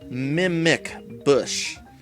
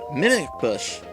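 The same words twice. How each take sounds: First: Each syllable is crisply and distinctly articulated. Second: The words run together and are loosely articulated. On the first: The speaker calls it right. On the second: The speaker calls it wrong.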